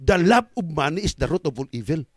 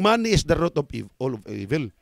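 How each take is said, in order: First: Correcting the verse, weight on "love"; correct quote. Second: The misquoted verse, "all of evil" fading away; misquote. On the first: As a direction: stress on "love" with a rise. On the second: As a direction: say "Money is the root of all evil" as the wrong version, weight on "Money". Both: Shown as a demonstration. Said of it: "Hindi yung".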